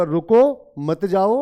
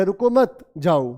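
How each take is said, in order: First: Loud रुको, pause, then मत जाओ as one phrase; pause after रुको. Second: रुको मत run together, pause, then जाओ; pause after मत. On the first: Teacher showing students the first meaning, pause after रुको. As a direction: break after रुको, keep मत जाओ together, slowly. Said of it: "इसका दो मीनिंग होगा". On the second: Teacher showing students the second meaning, pause after मत. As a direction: stress मत and break before जाओ, slowly. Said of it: "इसके दो मीनिंग है". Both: Shown as a demonstration.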